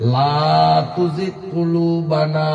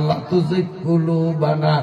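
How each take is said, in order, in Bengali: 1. 'la'-এর স্বরধ্বনিটি টেনে দীর্ঘ করে পড়তে হবে। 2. 'la'-এর স্বরধ্বনিটি ছোট করে পড়তে হবে। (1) "লা একটু টানতে হবে" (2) "টান না দিয়া যদি এইভাবে পড়েন"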